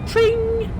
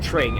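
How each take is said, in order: First: The word is said in a happy, cheery way. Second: The word is said flatly, without cheer. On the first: The speaker calls it right. "make it sound happy and cheery" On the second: The speaker calls it wrong. "I can't say like tring"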